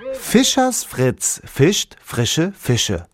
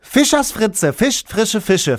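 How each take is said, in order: First: It is said at a moderate pace. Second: It is said very fast.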